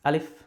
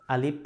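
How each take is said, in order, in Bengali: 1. শেষের f ধ্বনিটা টানা হয় এবং চলতে থাকে। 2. শেষের f ধ্বনিটা হঠাৎ করে কেটে দেওয়া হয়। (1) "ফয়ের আওয়াজটা চালু থাকবে" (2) "আলিফ হবে না"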